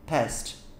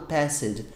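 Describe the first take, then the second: First: The word is said as one short syllable. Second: The written e is sounded as an extra syllable. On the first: The speaker calls it right. "fala past" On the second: The speaker calls it wrong. "tem um E lá, eu sei, mas não é falado passed"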